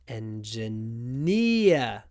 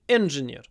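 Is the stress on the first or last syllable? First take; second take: last; first. First: The stress is on the last syllable. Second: The stress is on the first syllable. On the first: The speaker calls it right. "At the end" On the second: The speaker calls it wrong. "the stress at the beginning. So they say"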